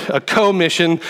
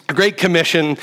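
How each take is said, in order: First: "commission" with a full "koh" at the front; "commission" pronounced like co plus mission. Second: Said in the usual way. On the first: Shown as a demonstration. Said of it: "he's in this with us".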